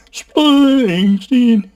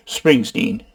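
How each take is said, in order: First: Drawn-out name. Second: Said in the usual way. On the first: Real, not acted. Searching the web for [name], high and drawn-out name.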